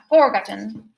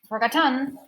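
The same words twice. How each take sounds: First: The stress is not on the middle syllable. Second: The stress is on the middle syllable. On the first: The speaker calls it wrong. "Not forgotten" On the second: The speaker calls it right. "The middle one"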